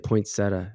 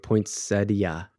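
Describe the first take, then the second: First: The word ends without a separate 'i-a' sound. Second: The word ends with a separate 'i-a' sound. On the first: "you just say" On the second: "People are pronouncing the I-A"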